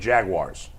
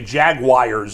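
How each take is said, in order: First: It is said with a standard pronunciation. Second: It is said with an Ohio regional pronunciation. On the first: "instead of Jaguars" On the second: "a segment of people from Ohio ... that say Jaguars"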